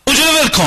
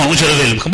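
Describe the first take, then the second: First: High, loud order to drop it; bossy command. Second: Lower, meek reply of obedience; meek compliance. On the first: A bossy spouse orders the other to quit, loud and high. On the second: The obedient spouse meekly agrees to quit, low voice. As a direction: answer low like a yes-man. Acted submissive spouse obeying. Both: Acted.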